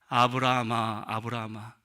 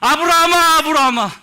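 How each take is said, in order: First: It is said in a calm, dignified voice. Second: It is said in an alarmed, urgent voice.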